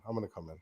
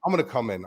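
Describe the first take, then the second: First: Repeats it softer each time until barely there; fading to a hush. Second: Said in the usual way. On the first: Shown as a demonstration. To the chat, repeating it while fading out softly.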